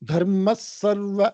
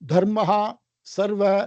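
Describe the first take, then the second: First: The first word blends into the next 's' sound. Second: The first word ends with a separate 'ha' sound. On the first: The speaker calls it right. "தர்ம சர்வ அப்படி சொல்லணும்" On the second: The speaker calls it wrong. "அப்படி தனியா சொல்லாம"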